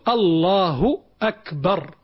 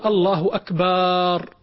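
First: The vowel after the b is kept short. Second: The vowel after the b is stretched long. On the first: The word means greatest. The speaker calls it right. "إنما قل الله أكبر" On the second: The word means drums. The speaker calls it wrong. "يمد باء أكبر"

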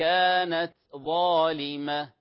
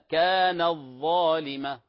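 First: A light breathy t is heard before the z. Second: The t is merged into the following z sound. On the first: The speaker calls it right. "لاحظوا التاء همس صوت خفيف ولا تجانس بينهما" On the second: The speaker calls it wrong. "هذا خطأ"

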